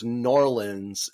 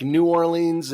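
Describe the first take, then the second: First: "Norlands" run together as "NOR-linz"; slow, contracted local "Norlands"; local pronunciation. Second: "New Orleans" as separate words, "new or-LEENS"; unmerged "New Or-leens" for "New Orleans"; standard pronunciation. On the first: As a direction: say "Norlands" for New Orleans, squashed into two syllables. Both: Shown as a demonstration. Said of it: "they're like, "No, it's Norlands".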